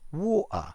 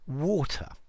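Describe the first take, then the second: First: The middle T sound is dropped completely. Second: The middle T sound is clearly pronounced.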